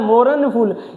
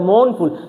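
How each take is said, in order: First: The r sound is pronounced in the word. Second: The r sound is left silent in the word. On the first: The speaker calls it wrong. "इसको पढ़ने में तो आएगा मोरन फूल" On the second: The speaker calls it right. "मौन फूल बोलते हैं, आर इसमें silent रहता है"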